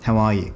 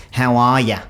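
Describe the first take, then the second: First: Said in the usual way. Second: Exaggerated Aussie "how are ya"; overdone Australian. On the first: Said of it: "just say that in your own accent". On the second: Shown as a demonstration. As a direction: lay the Australian vowels on thick. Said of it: "I will sometimes overdo it".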